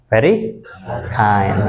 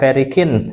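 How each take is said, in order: First: The vowel in 'kind' sounds like 'eye'. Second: The vowel in 'kind' sounds like 'ee'. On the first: The speaker calls it right. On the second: The speaker calls it wrong.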